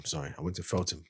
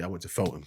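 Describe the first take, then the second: First: Feltham said carefully as "Felt-ham", final m clear; corrected name. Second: Said in the usual way. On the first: Shown as a demonstration. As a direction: correct yourself, spell out Feltham.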